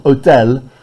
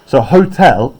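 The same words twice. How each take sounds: First: Hôtel with silent h, French vowels. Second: Said in the usual way. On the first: Shown as a demonstration. Teacher gives hôtel its French pronunciation. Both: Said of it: "It's a French word".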